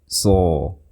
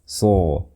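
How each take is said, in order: No difference in how they are said.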